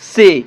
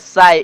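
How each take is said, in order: First: The vowel is a plain 'ay' sound. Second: The vowel is a diphthong like 'die'. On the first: The speaker calls it right. "ये हुआ इसका शुद्ध उच्चारण" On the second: The speaker calls it wrong. "हम गलती कर देंगे"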